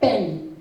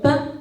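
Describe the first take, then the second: First: The word ends with an audible n sound. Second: The word ends in a plain nasal vowel. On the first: The speaker calls it wrong. "calqué la prononciation de la lettre" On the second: The speaker calls it right. "Elle prononce le mot pain"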